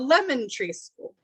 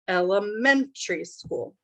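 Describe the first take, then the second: First: The stress falls on the syllable lem. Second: The stress falls on the syllable men. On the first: It sounds like a school named Lemon Tree. The speaker calls it wrong. "they put stress on lemon" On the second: It means a primary school. The speaker calls it right. "it's men"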